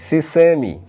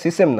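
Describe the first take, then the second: First: The word ends on an 'ee' vowel. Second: The word ends on a consonant sound. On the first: The speaker calls it right. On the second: The speaker calls it wrong. "উচ্চারণটা সিসেম নয়"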